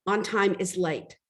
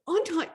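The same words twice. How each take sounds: First: Slow and firm, each word weighed; firm manager statement. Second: High, rising disbelief; incredulous question. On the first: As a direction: lay down the rule calmly like a strict boss. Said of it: "And she said". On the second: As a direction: echo the words back in shock. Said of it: "I'm like". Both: Retold or imitated.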